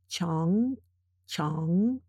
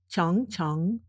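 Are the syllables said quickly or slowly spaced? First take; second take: slowly spaced; quickly. First: The syllables are said slowly with gaps between. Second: The syllables are said quickly and run together. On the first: "I will read the characters sort of spaced" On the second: "then I will read them faster, closer together"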